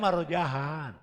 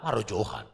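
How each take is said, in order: First: The third syllable has an 'ah' vowel. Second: The third syllable has an 'oh' vowel. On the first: The name is said the way its owner says it. The speaker calls it right. "Nama saya Marojahan" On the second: The name is said the way other people wrongly say it. The speaker calls it wrong. "Orang lain itu Marojohan"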